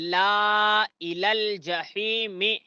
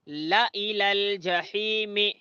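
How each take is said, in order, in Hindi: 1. la में स्वर लंबा खींचो। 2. la में स्वर छोटा रखो। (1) "ऐसा पढ़ना गलत है" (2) "ऐसा पढ़ना सही है"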